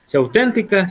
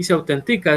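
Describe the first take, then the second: First: "Se auténtica" with the stress moved to the syllable tén. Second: "se autentica" with the stress on TI, as in the written form; correct stress, no accent mark. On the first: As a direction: hit tén in "auténtica", the adjective form. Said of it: "se llevaría tilde en la E". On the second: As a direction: say "autentica" with the verb stress on the syllable ti. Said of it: "porque no se tilda". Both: Shown as a demonstration.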